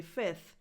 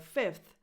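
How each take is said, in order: First: "fifth" said as "fith"; short i straight into th in "fifth"; dropped F. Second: "fifth" with f and th both sounded; full f-th ending on "fifth"; F kept. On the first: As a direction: skip the second f in "fifth". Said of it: "allowed to say fifth". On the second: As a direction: say "fifth" as fif-th. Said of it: "instead of fifth". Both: Shown as a demonstration.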